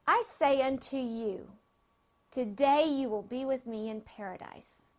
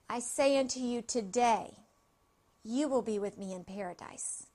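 First: The pause comes before 'today'. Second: The pause comes after 'today'.

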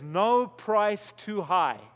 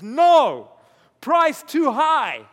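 First: It is said as one phrase without a pause. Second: There is a pause after the word no.

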